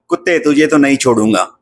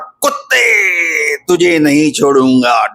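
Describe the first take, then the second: First: It is said plainly, without theatrical force. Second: It is said dramatically, with theatrical force.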